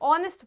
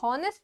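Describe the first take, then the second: First: The word begins with a vowel, no h. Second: The word begins with an audible h sound. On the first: The speaker calls it right. "ऑनेस्ट पढ़ते हैं / एच silent होता है" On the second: The speaker calls it wrong. "हम लोग इसको हॉनेस्ट नहीं"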